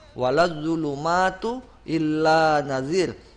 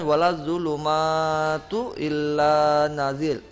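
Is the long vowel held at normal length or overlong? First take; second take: normal; overlong. First: The long vowels are held at normal length. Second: The long vowels are stretched much too long. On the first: The speaker calls it right. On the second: The speaker calls it wrong.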